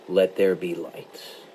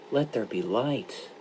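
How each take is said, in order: First: It is said as an authoritative command. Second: It is said as a sorrowful request.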